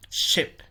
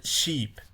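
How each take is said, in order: First: "ship" with a short, lax i; short vowel. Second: "sheep" with a long ee; long vowel. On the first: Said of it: "one is short vowel". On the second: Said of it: "the other is long vowel". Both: Shown as a demonstration.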